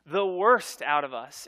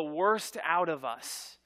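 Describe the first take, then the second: First: "worst" hit louder and slower; emphatic repeat. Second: Said in the usual way. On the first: Real, not acted. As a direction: lean hard on "worst".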